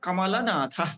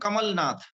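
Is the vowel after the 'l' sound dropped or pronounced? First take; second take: pronounced; dropped. First: The vowel after l is fully pronounced. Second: The vowel after l is dropped. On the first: The speaker calls it right. "शुद्ध उच्चारण है" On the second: The speaker calls it wrong. "Hindi के प्रभाव में हम बोलते हैं"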